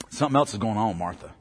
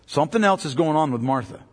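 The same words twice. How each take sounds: First: Low, fast, hushed aside; hushed quick aside. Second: Said in the usual way. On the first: Shown as a demonstration. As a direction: drop the voice and rush it like a secret. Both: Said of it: "repeats the line".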